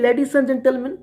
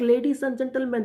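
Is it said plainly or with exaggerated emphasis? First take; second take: exaggerated emphasis; plainly. First: It is said with exaggerated, heightened emphasis. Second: It is said plainly, without extra emphasis.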